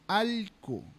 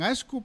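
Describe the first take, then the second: First: The middle consonant is an l sound. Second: The middle consonant is an sh sound. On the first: This is how the Amazon region says it. "en la Amazonía no decimos Ashku, decimos Alku" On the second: This is how the highlands say it. "en la sierra dicen Ashku para decir perro"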